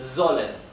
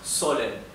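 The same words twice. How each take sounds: First: The word begins with a buzzing z sound. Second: The word begins with a hissed s sound. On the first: The speaker calls it right. "se pronuncia z" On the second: The speaker calls it wrong. "esto no es sollen"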